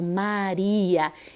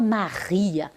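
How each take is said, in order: First: The R is pronounced soft and light. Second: The R is pronounced strong and forceful. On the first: The speaker calls it right. "eu falo Maria ... então é brando" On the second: The speaker calls it wrong. "Eu não falo Maria"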